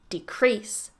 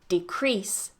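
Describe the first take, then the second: First: The stress is on the second syllable. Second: The same.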